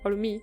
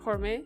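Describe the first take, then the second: First: The word ends with an I vowel sound. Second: The word ends with an E vowel sound. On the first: "o puede ser hormí" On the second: "Puede ser hormé con el acento"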